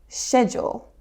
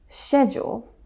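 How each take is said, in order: First: It is said with a British pronunciation. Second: The same.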